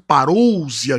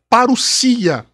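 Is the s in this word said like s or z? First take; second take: z; s. First: The s is voiced, sounding like z. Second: The s is voiceless, sounding like s. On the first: The speaker calls it wrong. "as pessoas falam parousia" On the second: The speaker calls it right. "a pronúncia correta é parousia"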